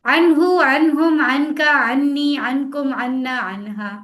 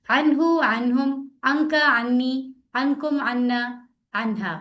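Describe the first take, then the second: First: No pause between words, quick and loud; fast without stopping. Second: Slow practice read. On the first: Teacher showing students how to read fast without stopping. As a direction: rattle off अनहु, अनहुम, Anka straight through, louder. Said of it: "देखिए, मैं रुकी भी नहीं". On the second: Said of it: "मेरे साथ ऊंची आवाज में प्रैक्टिस करें". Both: Shown as a demonstration.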